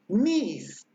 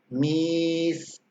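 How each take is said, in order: First: The vowel is long and carries a tone. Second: The vowel is long and level, with no tone. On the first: It means broom. "es vocal con tono" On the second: It means cat. "que sería una vocal larga"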